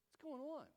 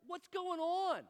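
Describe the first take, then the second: First: High-pitched question at normal volume; puzzled repeat. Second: High, loud, drawn-out question; exasperated outburst. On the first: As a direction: ask it high, without shouting. Same question repeated without shouting. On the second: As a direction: belt it out slowly, way up high. Comic bewildered outburst. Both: Acted.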